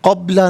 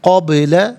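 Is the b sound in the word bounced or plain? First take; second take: plain; bounced. First: The b sound is plain, with no echo. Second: The b sound bounces with an echo. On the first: The speaker calls it wrong. "क़ब्ला नहीं" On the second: The speaker calls it right. "आवाज़ लौटती हुई महसूस होनी चाहिए"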